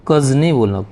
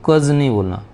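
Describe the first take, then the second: Both takes have the same delivery.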